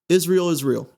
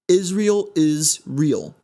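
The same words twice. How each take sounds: First: The words are said quickly and run together. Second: The words are said slowly and kept apart. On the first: "if you were to say it fast" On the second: "Now that's split up"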